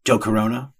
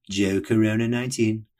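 First: Said in the usual way. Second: Name and number called out like a stadium announcer. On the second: Shown as a demonstration. Host giving his running catchphrase to listeners, announcer style. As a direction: hype the name up like a PA call. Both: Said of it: "as I'll say every time I say his name".

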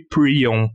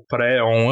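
First: "prion" said with an i before the "on"; "prion", the i version of the word; pronounced prion. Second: "préon" said with an open é before the "on"; "préon", the é version of the word; pronounced préon. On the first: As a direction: say "prion" with an ee sound in the first syllable. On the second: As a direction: say "préon" with an eh sound in the first syllable. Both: Shown as a demonstration. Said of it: "Eu não sei como se pronuncia isso".

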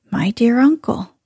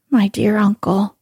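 First: A gentle, kindly address; mild kind old lady. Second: A lightly animated address; mildly animated old lady; with animation. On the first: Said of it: "she asked kindly". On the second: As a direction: start briskly, a touch lively. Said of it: "the old lady said with animation". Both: A narrator's reading.

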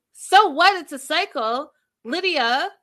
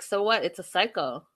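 First: Much higher, louder disbelieving repeat; incredulous echo. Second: Said in the usual way. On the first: Real, not acted. Host challenging Lydia over her shrug at the cycle, incredulous. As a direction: throw it back, pitched way up in outrage.

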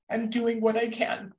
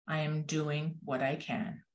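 First: Choked-up, really moved quotation; emotional. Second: Quiet resolve. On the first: Real, not acted. Quoting the hummingbird to thank teachers, genuinely emotional. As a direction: hold back tears while quoting. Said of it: "I get emotional about this". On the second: A narrator's reading. Hummingbird answers the other animals, quiet storybook resolve.

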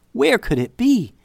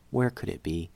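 First: High, rising panic in the voice; panicked question. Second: Softer, lower, almost to herself; hushed worried question. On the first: Narrator voicing a girl's sudden panic over the lost necklace. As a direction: ask it in a sudden fright, pitched up. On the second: Narrator quietly repeating the girl's worried question. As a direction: let the worry sink in quietly. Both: A narrator's reading.

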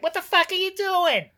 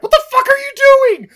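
First: High-pitched impression of a far-off yell; Joey Pants. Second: Loud, high-pitched outburst of disbelief; outraged yell. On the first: Podcaster imitating an actor shouting from far away, high yell. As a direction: call it out high, as if from miles away. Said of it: "That, that was Joey Pants from about four hundred miles away". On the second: Acted. Podcaster imagining himself berating the diamond thrower, outraged yell. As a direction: explode at them in mock outrage. Hypothetical outraged rant at Dylan Walsh.

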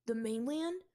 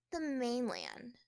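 First: Eager question. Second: Bored sighing answer, slow; sighed. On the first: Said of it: "His eyes glowed with admiration". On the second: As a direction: let it out on a weary sigh. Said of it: "she sighed". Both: Acted.

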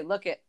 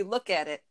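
First: "Look it" with AT left out; two syllables only, "Look it"; casual "Look it"; colloquial "look it". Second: "Look at it" with the AT sounded; careful "look at it". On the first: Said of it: "but we say". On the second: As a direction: say all three words of "Look at it". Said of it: "it's supposed to be". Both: Shown as a demonstration.

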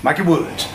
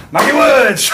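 First: Said in the usual way. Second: Much higher and louder, a big call-out of the name; excited shout. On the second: Acted. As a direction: bellow it like a ring announcer. Calling the wrestler's name.

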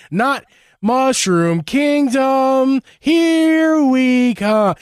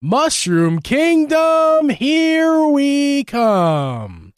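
First: Put-on slow, high Brooklyn accent. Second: Slow, high mock Brooklyn accent. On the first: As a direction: stretch each word in a Brooklyn accent. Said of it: "let's do a Brooklyn". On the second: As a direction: drag it out in a hammed-up Brooklyn accent. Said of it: "if you want a Brooklyn accent".

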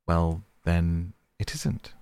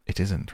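First: Calm him down gently; soothing. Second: Gentle settling repeat, falling; soothing. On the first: Mole backing down to calm the rat, soothing. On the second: Mole repeating to placate the rat, soothing. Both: A narrator's reading. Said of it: "replied the mole soothingly".

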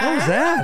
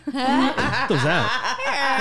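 First: Much higher and louder, near a shout; loud amazed repeat. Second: Slow, laughing, higher question; laughing disbelief. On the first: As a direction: blurt it out in amazement. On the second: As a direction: crack up mid-question. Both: Real, not acted. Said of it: "That was, like, two voices".

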